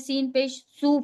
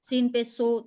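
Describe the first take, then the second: First: The final vowel is a long oo sound. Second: The final vowel is a mid oh sound. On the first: This is the standard (maaruf) reading. The speaker calls it right. "हमें सीन पेश सू पढ़ना है" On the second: This is the majhul reading. The speaker calls it wrong. "वो मजहूल तरीका होता है"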